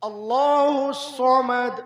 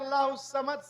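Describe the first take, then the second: First: The s sound is heavy and deep. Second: The s sound is light and plain. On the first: God is self-sufficient. The speaker calls it right. "सौद में उठाइए" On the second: God is bewildered. The speaker calls it wrong. "सीन से"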